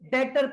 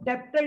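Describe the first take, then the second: First: No b sound is pronounced mid-word. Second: A b or p sound is pronounced mid-word. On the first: The speaker calls it right. "यहाँ पे बी silent होता है, इसको डेटर पढ़ते हैं" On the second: The speaker calls it wrong. "इसको डेप्टर नहीं पढ़ते"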